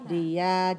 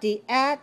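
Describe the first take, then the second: First: The two syllables flow together without a break. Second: The two syllables are split apart with a break. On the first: The speaker calls it right. "Keep the syllables together. Link them to each other" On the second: The speaker calls it wrong. "I hear some people say the at ... No. Do not separate the syllables"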